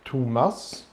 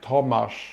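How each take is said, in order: First: The name is said with a Swedish pronunciation. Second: The name is said with a Polish pronunciation. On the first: "in Sweden, it's like" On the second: "in Poland, it's like ridiculous"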